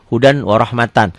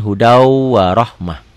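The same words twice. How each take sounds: First: Said in the usual way. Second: Slow "hudau warohmah", long w and final h; pausal reading. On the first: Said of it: "kalau ditulisin". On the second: Shown as a demonstration. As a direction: stretch "hudau" into w and stop "warohmah" on h. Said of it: "Kalau dihentikan". ("hudau warohmah" pelan, ditutup bunyi h)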